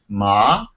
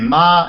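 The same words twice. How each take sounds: First: The word is said on a lower tone. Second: The word is said on a high tone. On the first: "like that" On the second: "with a kind of high tone"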